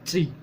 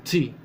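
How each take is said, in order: The two takes are said the same way.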